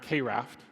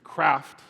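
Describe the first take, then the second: First: The letter K is said, then raft. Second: It is said as one syllable, like craft. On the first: The speaker calls it wrong. "not K-Raft" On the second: The speaker calls it right. "It's Craft"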